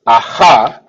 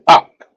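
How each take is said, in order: First: The word ends with an extra vowel. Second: The word ends on the final consonant. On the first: The speaker calls it wrong. "we don't pronounce this aha" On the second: The speaker calls it right. "we just pronounce it ak"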